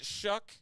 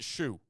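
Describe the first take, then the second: First: The name ends with a k sound. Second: The name ends on an open vowel. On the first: "Is it Shuck or is it Shoe? I've heard it pronounced both ways" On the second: "I've heard it pronounced both ways"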